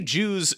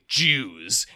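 First: The word is said in a plain, neutral tone. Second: The word is said with a loaded, charged inflection. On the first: It simply refers to the people. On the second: It carries an uncomfortable implication. "and suddenly it's like ooh"

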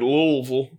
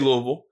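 First: The name is said slowly with fuller syllables. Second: The name is said quickly and clipped. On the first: This is not how the speaker says it. "I don't say Louisville" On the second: This is how the speaker normally says it. "I say Louisville, but and it's quick"

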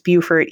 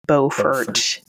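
First: The name is said with its local pronunciation. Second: The name is said as its written form suggests. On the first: The speaker calls it right. "you do pronounce Beaufort, South Carolina as Beaufort" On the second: The speaker calls it wrong. "even though it looks like it should be Beaufort"

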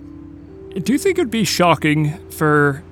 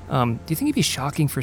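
First: It is said in an odd put-on voice. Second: It is said in a natural everyday voice.

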